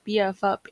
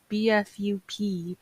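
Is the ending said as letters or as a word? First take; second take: word; letters. First: The last two letters are said as 'up'. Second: Every letter is spelled out separately. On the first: The speaker calls it right. "it's actually pronounced B F Up instead" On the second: The speaker calls it wrong. "you would probably pronounce it as B F U P"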